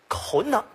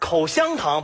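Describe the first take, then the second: First: A middle syllable is swallowed and slurred away. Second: Every syllable is pronounced clearly in full.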